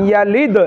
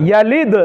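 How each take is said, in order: The two takes are said the same way.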